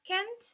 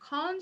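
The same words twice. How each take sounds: First: The word is said with an American accent. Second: The word is said with a British accent. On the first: "the short form for uh, American pronunciation" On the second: "the short form for British pronunciation"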